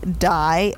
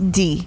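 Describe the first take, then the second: First: The name rhymes with 'eye'. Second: The name rhymes with 'see'. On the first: The speaker calls it right. "I never knew that her nickname was A, Die" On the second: The speaker calls it wrong. "I literally thought it was D"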